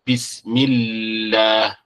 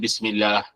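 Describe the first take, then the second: First: The L sound is held long and doubled. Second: The L sound is short and single. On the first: The speaker calls it right. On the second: The speaker calls it wrong. "Bukan Bismillah ... Salah"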